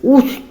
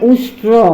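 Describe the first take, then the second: First: The r sound after t is dropped. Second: Both the sh and r sounds are kept. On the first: The speaker calls it wrong. "একবার রটা ভুল করে" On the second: The speaker calls it right. "মানে উষ্ট্র বলতে চাচ্ছে"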